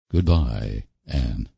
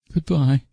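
First: Low, subdued parting; Roy's farewell. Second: High, wavering goodbye; faltering. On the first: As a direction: say goodbye low and heavy, a lightly voiced man. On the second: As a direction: let her goodbye falter, pitched high. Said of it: "faltered Anne". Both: A narrator's reading.

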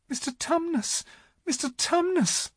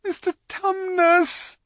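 First: Put-on very high, anxious little girl; great distress. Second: High, loud, drawn-out yell; bawling. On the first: Lucy calling to the howling faun, in great distress. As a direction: plead in a small, high voice. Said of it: "said Lucy in great distress". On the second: Lucy shaking the crying faun, bawling at him. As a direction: bawl the name into his ear. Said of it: "bawled Lucy in his ear". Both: A narrator's reading.

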